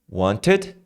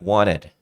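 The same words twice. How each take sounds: First: The t is a hard, clipped stop. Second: The t is a soft, R-like tap. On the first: "o som do T, que é paulada" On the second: "você transforma ele em R"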